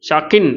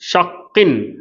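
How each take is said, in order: First: The k sound is short, not doubled. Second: The k sound is held long, doubled. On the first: The speaker calls it wrong. "ஷக்கின் அப்படின்னு வாசிக்கக்கூடாது" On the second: The speaker calls it right. "Double count கொடுத்து கரெக்டாக உச்சரிக்கணும்"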